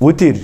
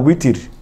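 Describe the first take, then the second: First: The word begins with a W sound. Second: The same.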